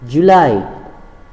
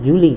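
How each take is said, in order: First: The name is said the English way. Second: The name is said the Indonesian way. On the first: The speaker calls it right. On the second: The speaker calls it wrong.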